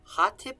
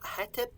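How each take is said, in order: First: The word is said with 'a' then 'i', ha-tip. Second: The word is said with 'e' vowels, heh-tep. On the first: How it might have sounded around 2200 BC. "I'm going to read it in reconstructed now" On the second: A conventional consonant readout scholars use. "the Egyptological for all of this would be"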